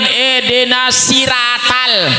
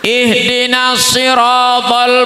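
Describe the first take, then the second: First: It is said with plain Latin-letter sounds. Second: It is said with Arabic consonant sounds. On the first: This follows the Latin transliteration. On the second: This follows the Arabic script.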